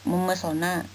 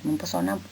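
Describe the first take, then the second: First: No p sound; the m runs into the vowel. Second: A p sound follows the m in the middle. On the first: The speaker calls it right. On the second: The speaker calls it wrong.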